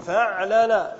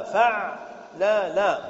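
First: Said in the usual way. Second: فعلل stretched very slowly, each syllable held; slow scansion. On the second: Shown as a demonstration. Teacher drawing out فعلل as the pattern of جلبب. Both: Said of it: "على وزن ماذا".

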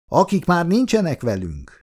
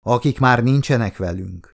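First: Much higher echo, falling at the end; high-pitched answering toast, pitch dropping to finish. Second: Said in the usual way. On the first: A narrator's reading. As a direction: repeat the toast with NINCSENEK lifted high. The others echo the second toast.

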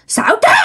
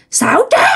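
First: Shrill high cry of "Xảo trá"; high ghostly shriek. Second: Ghost accusing. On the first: Ghost shrieking at the lying lover. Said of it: "Nói vậy đó". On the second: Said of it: "cái giọng này ồm ồm, nghe nó vang vang". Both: Retold or imitated.

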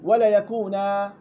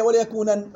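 First: ولا يكونا said slowly, stopping on a long alif; correct pause form. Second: ولا يكونا said quickly, ending on a nun; student's wrong pause. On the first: Shown as a demonstration. Teacher modeling the correct pause, slow. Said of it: "يوقف عليها بالألف". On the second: Retold or imitated. Teacher mocking a student's wrong pause, quick. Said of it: "غلط، رونج".

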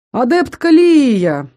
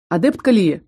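First: Drawn-out, delighted call of «Лия»; joyful exclamation. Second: Said in the usual way. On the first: Acted. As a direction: greet her loudly, slowly, with delight. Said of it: "радостно воскликнул Дайшин". (радостное восклицание) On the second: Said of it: "радостно воскликнул".

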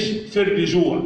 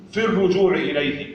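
First: الرجوع mispronounced with "ri" for "ru"; wrong kasra on ر. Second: الرجوع with a clear "ru"; damma on ر. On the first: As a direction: say الرجوع as "ir-rijou", i after the r. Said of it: "ضم الراء بتاع الرجوع، مش". (الرجوع بكسر الراء خطأً) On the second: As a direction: round the vowel after r in الرجوع. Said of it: "ضم الراء بتاع الرجوع". (الرجوع بضم الراء) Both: Shown as a demonstration.

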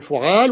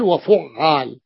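First: فعال with one short ع; light middle consonant. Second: وفعال with a long, stressed double ع; doubled middle consonant. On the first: Teacher contrasting two patterns for students, فعال with undoubled ع. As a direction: keep the ع single in فعال. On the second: Teacher contrasting two patterns for students, وفعال with doubled ع. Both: Shown as a demonstration. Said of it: "بالتشديد أو التخفيف".

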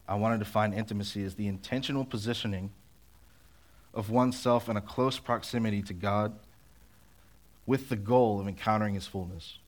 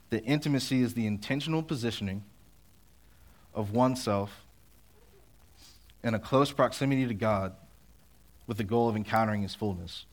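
First: Said in the usual way. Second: Slower, deliberate restatement. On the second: Shown as a demonstration. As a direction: lay out each phrase slowly with pauses. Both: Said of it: "I'll say it slower".

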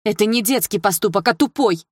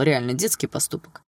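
First: Louder, higher, hitting детский and тупой hard; angry exclamation. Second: Said in the usual way. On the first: A narrator's reading. Dilara correcting Mel, angrily shouting. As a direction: throw тупой back at him. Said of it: "воскликнула Дилара". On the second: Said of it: "мне жаль, правда".

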